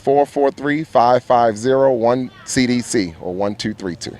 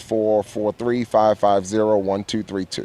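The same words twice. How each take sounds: First: The number is read more slowly. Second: The number is read at normal speed.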